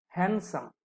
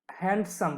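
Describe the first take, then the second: First: "হ্যান্ডসাম" with no d between n and s; silent d. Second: "হ্যান্ডসাম" as commonly mispronounced, d audible before the s; d pronounced. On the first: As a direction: say "হ্যান্ডসাম" as hen-sam, dropping the d. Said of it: "ডিটা silent". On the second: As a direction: say "হ্যান্ডসাম" with the d sounded, hend-sam. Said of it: "আসলে ডি উচ্চারণ করা যাবে না". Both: Shown as a demonstration.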